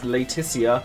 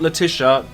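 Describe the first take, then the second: First: The name is said slowly and very clearly. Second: The name is said in a casual, everyday way. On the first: The speaker calls it right. "very, very clearly pronounced that" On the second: The speaker calls it wrong. "not Letitia"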